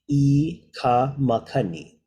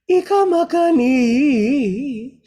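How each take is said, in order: First: The first two words are kept apart. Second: The first two words are pushed together quickly. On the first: This is the careful spoken pronunciation. "we're gonna say it" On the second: This is how it is sung. "So you crunch that"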